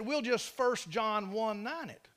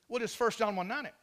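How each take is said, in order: First: The phrase is spoken slowly. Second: The phrase is spoken quickly. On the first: "say that slower" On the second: "He said it real fast"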